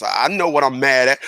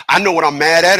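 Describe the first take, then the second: First: Said in the usual way. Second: Louder repeat ending on a rise; firm insistence. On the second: Shown as a demonstration. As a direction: hit it harder the second time.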